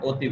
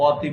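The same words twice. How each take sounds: First: অতি with a closed "o" at the start; correct pronunciation. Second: অতি with an open "aw" at the start; wrong pronunciation demo. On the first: Teacher telling students how we say অতি, with an ও sound. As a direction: round the first vowel of অতি into ও. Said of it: "ও এর মতো হয়". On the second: Teacher showing students the অতি we don't say, open vowel. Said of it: "অতি বলি না". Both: Shown as a demonstration.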